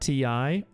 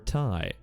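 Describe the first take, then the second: First: It is spelled out as two letters. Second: It is said as one word rhyming with pie. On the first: "is it T I or tie?" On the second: "is it T I or tie?"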